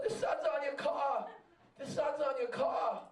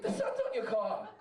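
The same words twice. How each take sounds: First: Calling across traffic, a touch raised; retold yell from the next car; mild mock shout at a stoplight. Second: The repeat pitched much higher; hammed-up repeat to a rolled-down window; insistent repeat yell. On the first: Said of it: "The guy's yelling". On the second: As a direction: shout it again, exasperated he didn't hear. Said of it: "It's like".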